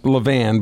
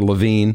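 First: The last syllable sounds like 'van'. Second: The last syllable sounds like 'veen'. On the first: The speaker calls it right. "it's pronounced Levan" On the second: The speaker calls it wrong. "or Levine"

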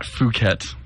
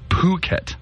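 First: The word begins without a heavy p sound. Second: The word begins with a heavy p sound. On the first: The speaker calls it wrong. "Is not Phuket" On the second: The speaker calls it right. "With a heavy p"

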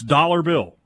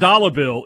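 First: The R at the end of dollar is pronounced. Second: The R at the end of dollar is dropped. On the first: The speaker calls it right. "There's an R in there" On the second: The speaker calls it wrong. "It's not dollar bill"

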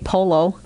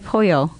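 First: The double L is said as an L sound. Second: The double L is said as a Y sound. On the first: The speaker calls it wrong. "you don't say polo" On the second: The speaker calls it right. "two L's make a Y. ... You say pollo"

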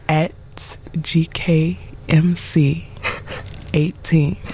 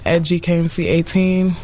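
First: It is said slowly and deliberately. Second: It is said at normal conversational speed.

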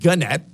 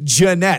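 First: The name begins with a hard G sound. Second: The name begins with a soft J sound. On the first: The speaker calls it wrong. "Not Gunnette" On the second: The speaker calls it right.

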